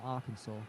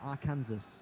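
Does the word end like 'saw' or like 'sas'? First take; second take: saw; sas. First: The word ends with a 'saw' sound. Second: The word ends with a 'sas' sound. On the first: This is how people actually say it. The speaker calls it wrong. "In no one's right mind should someone pronounce that Arkansas" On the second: This is how the spelling reads. The speaker calls it right. "It's written Arkansas"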